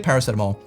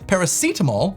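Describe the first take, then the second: First: It uses the Southern regional pronunciation. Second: It uses the standard dictionary pronunciation. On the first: "people in the South and myself say paracetamol" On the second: "is actually the correct way of pronouncing the word"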